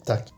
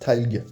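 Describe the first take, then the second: First: Only one final consonant, a k sound, is pronounced. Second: Both final consonants, l and g, are pronounced. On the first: The speaker calls it right. "on va le lire tac" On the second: The speaker calls it wrong. "on va pas le lire talg"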